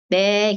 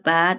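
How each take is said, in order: First: The letter name is said with an e vowel. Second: The letter name is said with an a vowel. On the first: "tapi e, be gitu" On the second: "bukan a, ba"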